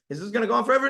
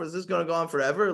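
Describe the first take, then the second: First: It is a rhetorical question expecting the answer no. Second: It is a pained, genuinely asking question.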